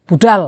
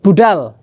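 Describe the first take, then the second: First: "budal" with the pitch rising at the end like a question; questioning rise. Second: "budal" with the pitch falling at the end like a plain statement. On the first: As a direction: ask "budal" with a lifting tune. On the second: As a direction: state "budal" with a dropping tune. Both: Shown as a demonstration. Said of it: "Antara budal perintah dan budal khobar".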